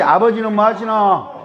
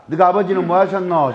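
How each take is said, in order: First: 아버지는 뭐 하시노 with 뭐 stressed, in a Gyeongsang accent; a second try at the Gyeongsang greeting; 경상도 사투리로 다시; Gyeongsang accent, retake. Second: 너가 아버지는 뭐 하셨노 in a Gyeongsang accent with a fall at the end; a Gyeongsang greeting with a slight laugh; 경상도 사투리로 묻기. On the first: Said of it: "다시". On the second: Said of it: "인사 이렇게 한번 해봅시다". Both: Shown as a demonstration.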